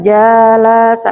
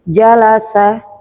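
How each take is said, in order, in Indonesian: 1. Vokalnya dibaca panjang. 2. Vokalnya pendek dan cepat. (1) "Kalau dibaca panjang-panjang nanti pembahasannya lain lagi" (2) "Kita dibaca lebih uh, cepat sedikit"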